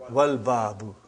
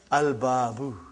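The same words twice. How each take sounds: First: "Wal Babu" with waw linked straight onto the lam; joined pronunciation. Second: "Al Babu" with the l sounded before b; lam pronounced. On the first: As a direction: demonstrate "Wal Babu", l still sounded. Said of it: "Put Waw in front". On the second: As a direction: teach "Al Babu", keeping its lam audible. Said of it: "I did pronounce Lam". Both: Shown as a demonstration.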